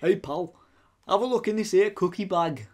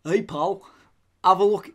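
First: Put-on light goofy northern English accent. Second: Lightly put-on northern English accent; a hint of a goofy northern accent. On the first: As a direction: play the northerner lightly, for laughs. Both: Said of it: "I was just doing something goofy Northern".

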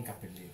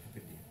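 First: "cappellino", the P doubled as in cappello; double P in cappellino. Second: "capellino", a single P as in capello. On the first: (cappellino con la doppia P) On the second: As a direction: say capellino with one short P. (capellino con una sola P) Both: Shown as a demonstration. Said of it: "Non cappellino, capellino".

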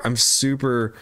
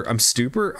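First: Said in the usual way. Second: "super" misspoken as "stooper", with an extra t; slip of the tongue. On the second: Real, not acted. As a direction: stumble on "super", adding a t after the s. Slip corrected straight after.

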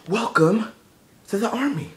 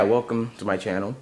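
First: Much higher, exaggerated greeting; high playful welcome. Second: Said in the usual way. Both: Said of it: "It's like, nah".

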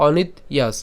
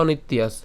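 First: "অনিত্যাস" split as onit, yas; said separately. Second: "অনিত্যাস" joined as onit-tyas; said together. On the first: Teacher contrasting joined and split, "অনিত্যাস" broken as onit-yas. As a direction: say "অনিত্যাস" in two parts, breaking after the t. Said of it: "আলাদা উচ্চারণ করে". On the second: Teacher contrasting joined and split, "অনিত্যাস" run together. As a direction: say "অনিত্যাস" as one unbroken word. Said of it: "একসাথে উচ্চারণ করলে". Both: Shown as a demonstration.

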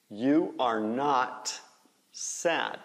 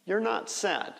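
First: "You are" as two slow, separate words; full form. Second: "You're" reduced to a short "yer", higher; contracted form. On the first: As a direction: stretch out "You are", pausing before "sad". (forma completa, "You are" em duas palavras) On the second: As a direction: shrink "You're" and run straight through. (forma contraída, "You're" numa sílaba curta) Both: Shown as a demonstration. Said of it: "Faz a contração".

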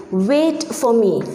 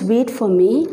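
First: Slow, falling tune like a firm instruction; calm order. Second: Wait for me with a lifting, urgent tune on me; exclamation. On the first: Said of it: "So when you say". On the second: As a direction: call out Wait for me as an exclamation, voice rising at the end. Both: Shown as a demonstration.

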